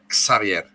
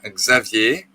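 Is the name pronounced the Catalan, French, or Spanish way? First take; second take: Catalan; French. First: The name is said with a Catalan pronunciation. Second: The name is said with a French pronunciation. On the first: "en catalán se pronuncia eh, Xavier" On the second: "en francés mi nombre se pronuncia Xavier"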